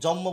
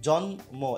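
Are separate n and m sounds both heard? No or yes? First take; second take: no; yes. First: The n and m are not both clearly pronounced. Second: Both an n and an m are clearly pronounced. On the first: The speaker calls it wrong. "এটাকে অনেকে জন্ম বলে ফেলে, না একদম না" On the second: The speaker calls it right. "জন্ম এখানে ন আর ম আর কি"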